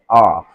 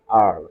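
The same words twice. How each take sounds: First: The letter is said in a British accent. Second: The letter is said in an American accent. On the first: "according to the British English" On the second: "according to the rules of uh, American uh, English"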